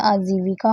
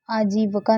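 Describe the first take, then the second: First: आजीविका said clearly as aa-jee-vi-ka; आजीविका with a crisp vi; correct spelling said aloud. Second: आजीविका with a short neutral vowel, like aajiv-uh-ka; आजीविका said as aajivuhka, the wrong form; wrong spelling said aloud. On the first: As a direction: say आजीविका the right way, with a clear full i in vi. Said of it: "आजीविका होता है". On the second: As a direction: say आजीविका the wrong way, blurring the third syllable. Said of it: "आजीविका नहीं होता". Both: Shown as a demonstration.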